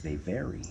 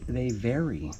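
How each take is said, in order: First: Whisper. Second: Said in the usual way. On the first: Shown as a demonstration. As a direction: repeat it in a soft, breathy whisper. Repeats line, then whispers it.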